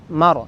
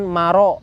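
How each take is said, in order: First: The word ends on the r sound. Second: The word ends with an added vowel. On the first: The speaker calls it right. "kembali ke huruf ro semula" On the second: The speaker calls it wrong. "bukan maro, bukan ya"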